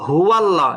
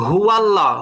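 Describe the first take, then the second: Both takes have the same delivery.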